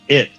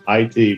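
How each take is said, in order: First: It is said as the single word "it". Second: It is said as two separate letters. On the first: The speaker calls it wrong. "it pronounced it it at every single time" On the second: The speaker calls it right. "pronounce capital I T as I T, please"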